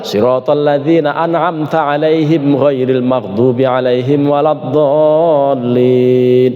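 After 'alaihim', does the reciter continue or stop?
continue. The recitation runs on past alaihim without stopping. It keeps the chapter at seven verses. The speaker calls it right. "Tapi bablas, ... Itu baru pas"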